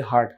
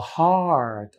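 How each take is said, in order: First: "হার্ট" said short, the local way; everyday short vowel. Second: Higher "হার্ট" with a long, falling ah; long open vowel. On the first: Teacher quotes how locals say it, short vowel. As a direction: keep the ah in "হার্ট" brief. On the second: Teacher models the English word, drawn-out ah. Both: Shown as a demonstration. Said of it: "আমরা বলি হার্ট".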